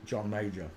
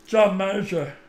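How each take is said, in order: First: Said in the usual way. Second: Lightly voiced John Major; name yourself in his voice; mock politician voice; a hint of John Major. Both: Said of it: "who was we gonna do".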